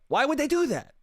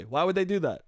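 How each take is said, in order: First: Much higher, incredulous repeat of the question; mock disbelief. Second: Said in the usual way. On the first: Shown as a demonstration. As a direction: ask it again in a high, stunned voice.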